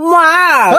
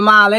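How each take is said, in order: First: The word is said in a put-on foreign way. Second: The word is said in a plain local way. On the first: This is the proper foreign name. "জিবিটা এরকম এই পাশে নিয়ে এরকম করবি" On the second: This is the everyday local name. "এটি তো বাংলাদেশি নাম"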